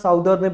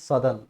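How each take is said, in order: First: The first vowel sounds like 'ow' in 'south'. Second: The first vowel sounds like 'uh' in 'sun'. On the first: The speaker calls it wrong. "कुछ बच्चे बोलते हैं, ये गलत है" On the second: The speaker calls it right. "Exact pronunciation जो है वो सदर्न होता है"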